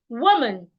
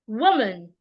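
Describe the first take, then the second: The two takes are said the same way.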